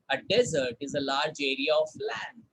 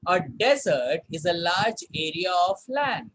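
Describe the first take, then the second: First: Model sentence repeated. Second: Model sentence read. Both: Shown as a demonstration. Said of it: "Sentence देखते हैं".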